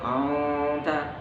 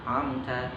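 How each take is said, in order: First: The m sound is blurred and unclear. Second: The m sound is pronounced clearly. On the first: The speaker calls it wrong. "Jangan sampai" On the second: The speaker calls it right.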